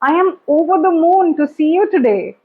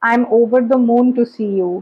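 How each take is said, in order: First: It is said in a lively, genuine voice. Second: It is said in a flat, unconvincing voice.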